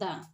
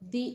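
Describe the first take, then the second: First: The word ends with a short 'uh' vowel. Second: The word ends with a long 'ee' vowel. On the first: The next word starts with a consonant. "উচ্চারণ হবে দা" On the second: The next word starts with a vowel. "তখন আমরা পড়ব দি"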